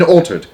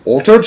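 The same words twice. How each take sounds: First: Loud "altered?" falling at the end; shouted flat. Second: High shouted "Altered?" rising at the end; shouted question. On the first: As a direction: shout "altered?" and drop the pitch. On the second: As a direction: shout "Altered?" in loud disbelief, pitch up. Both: A narrator's reading. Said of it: "shouted Mister Jenkins".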